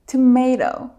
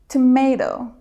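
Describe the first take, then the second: First: It is said with an American pronunciation. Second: The same.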